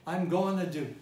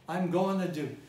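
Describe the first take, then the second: First: The words are blended together and reduced. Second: The same.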